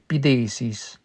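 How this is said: The middle consonant is a TH sound.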